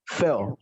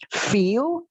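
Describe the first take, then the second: First: "feel." clipped with a short e, falling low; short E sound. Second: "Feel" with a long rising ee; long I sound. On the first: Teacher contrasting short e for students, falling. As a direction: cut it short like "fel". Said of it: "dan ini pakai E". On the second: Teacher contrasting long ee for students, rising. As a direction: stretch the ee in "Feel". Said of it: "Yang ini pakai I dan panjang". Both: Shown as a demonstration.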